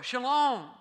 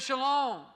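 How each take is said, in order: First: A firm, louder Shalom. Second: Calm commanding shalom. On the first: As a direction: say Shalom with calm authority. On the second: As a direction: hand down Shalom to the sea. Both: Shown as a demonstration. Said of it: "He says, "Shalom".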